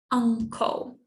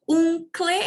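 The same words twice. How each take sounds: First: Uncle said as UHN-kuhl, short and clean; right way to say uncle. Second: Uncle said Portuguese-style, oong-klee, with a rising end; mock the wrong uncle as oong-klee. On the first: Teacher to class, showing the correct form: uncle as UHN-kuhl. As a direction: model uncle with the English uh vowel. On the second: Teacher warning students off the mistake: uncle as oong-klee. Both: Shown as a demonstration. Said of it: "not uncle".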